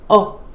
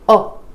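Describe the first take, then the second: Both takes have the same delivery.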